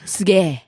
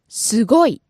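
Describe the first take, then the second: First: The word ends with a long held 'ge'. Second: The word ends with the full 'goi' sound.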